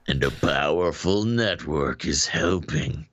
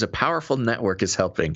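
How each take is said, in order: First: It sounds scary and ominous. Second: It sounds cheerful, like good news.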